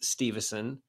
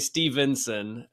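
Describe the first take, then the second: First: The name has no n before the final son. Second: The name has an n before the final son. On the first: The speaker calls it right. "it is Stevenson, and I'm glad that you said it correctly" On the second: The speaker calls it wrong. "they almost always say Stevenson"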